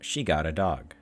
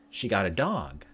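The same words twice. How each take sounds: First: It has the intonation of a plain statement. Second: It has the intonation of a question. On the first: It reports a fact. "the first being that she got a dog is a regular statement" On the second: It asks whether it is true. "but it being a question"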